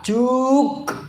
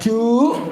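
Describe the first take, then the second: First: The word ends with a k sound. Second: The word ends with a glottal stop. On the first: "Apalagi ka. Juk. Bukan" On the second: "Bukan ju. Hamzah bukan"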